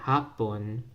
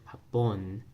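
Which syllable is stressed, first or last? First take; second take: first; last. First: The stress is on the first syllable. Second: The stress is on the last syllable. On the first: "the first word with the first stress on the ha" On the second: "Second stress on that last syllable"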